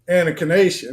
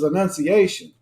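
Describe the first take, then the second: First: The second syllable sounds like 'nak'. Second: The second syllable sounds like 'nun'. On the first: The speaker calls it wrong. "I kept saying Anakination" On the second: The speaker calls it right. "it was Annunciation"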